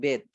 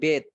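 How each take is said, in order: First: The word is shortened to one syllable. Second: The same.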